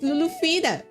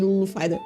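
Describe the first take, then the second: First: The second name sounds like 'feeda'. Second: The second name sounds like 'fighter'. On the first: The speaker calls it right. "It's Lulu Fida" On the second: The speaker calls it wrong. "People always call calls me Lulu Fighter"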